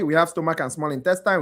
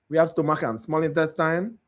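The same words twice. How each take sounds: First: The phrase is spoken quickly. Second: The phrase is spoken slowly.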